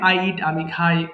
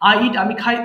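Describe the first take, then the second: First: The phrase is read slowly and haltingly. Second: The phrase is read very quickly and smoothly. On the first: The English does not come automatically. The speaker calls it wrong. "এরকম পড়লে পড়লে ... slow আসবে" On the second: The English comes automatically. The speaker calls it right. "খেয়াল করেন কত দ্রুত পড়তে পারি।"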